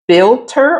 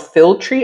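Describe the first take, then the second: First: The word ends with an 'er' sound. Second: The word ends with an 'ree' sound. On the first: "I think you pronounced this filter or filtry" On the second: "I think it's filtry"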